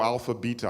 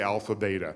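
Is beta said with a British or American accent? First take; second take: British; American. First: Beta is said with a British accent. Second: Beta is said with an American accent.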